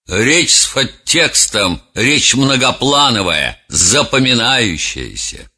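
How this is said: The voice sounds sermonizing and self-important. The speaker moralizes at length for show. "Резонер, демагог, по-другому произнес бы эту фразу"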